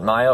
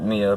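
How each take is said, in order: First: The first vowel sounds like 'eye'. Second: The first vowel sounds like 'ee'. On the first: This is how its owner said it. "she pronounced it Maya" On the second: This is how the speaker would say it. "I would pronounce it Mia"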